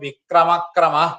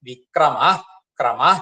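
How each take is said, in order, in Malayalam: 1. രണ്ട് വാക്കുകളും ശ്വാസവിസർഗമില്ലാതെ ചേർന്ന് ചൊല്ലുന്നു. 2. ഓരോ വാക്കും വ്യക്തമായ ശ്വാസവിസർഗത്തോടെ അവസാനിക്കുന്നു. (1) "ചിലപ്പോ ഒക്കെ ചെല്ലുമ്പോ വിക്രമക്രമ എന്ന് ചെല്ലും, അത് പോരാ" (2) "അങ്ങനെ തന്നെ ചൊല്ലണം"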